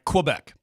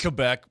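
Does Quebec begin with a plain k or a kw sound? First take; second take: kw; k. First: The word begins with a kw sound. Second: The word begins with a plain k sound. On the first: The speaker calls it right. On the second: The speaker calls it wrong.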